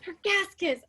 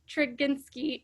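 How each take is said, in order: First: The name is said as Tregaskis. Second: The name is said as Treginski. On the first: The speaker calls it right. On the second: The speaker calls it wrong.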